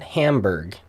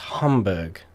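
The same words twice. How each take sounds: First: It is said with an English-style pronunciation. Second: It is said with a German-style pronunciation. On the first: The speaker calls it wrong. "a lot of people here pronounce it" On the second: The speaker calls it right. "So it's Hamburg. In Deutschland"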